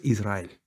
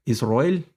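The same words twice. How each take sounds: First: "Israel" with a clear a and initial I; correct pronunciation demo. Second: "Israel" with the a rounded to o, Isroel; Orthodox pronunciation. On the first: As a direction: keep the middle vowel of "Israel" an open a. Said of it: "lo correcto es Israel". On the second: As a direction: round the middle vowel of "Israel" into an o. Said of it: "tono ortodoxo". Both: Shown as a demonstration.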